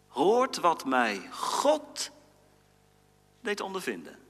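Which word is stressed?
God. The stress falls on the word God.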